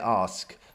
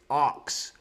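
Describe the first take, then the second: First: The word ends with s followed by k. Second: The word ends with k followed by s. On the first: "which I would say ask" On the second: "It's arcs"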